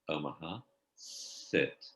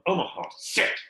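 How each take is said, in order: First: It is said sweetly and gently. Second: It is shouted harshly at the dog.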